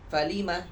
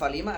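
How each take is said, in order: First: Its intonation marks fa apart from lima. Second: It is read as one blended word. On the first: It is the letter fa joined to the word lima. The speaker calls it right. "akan tetapi falima" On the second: It reads as a single word. The speaker calls it wrong. "bukan falima"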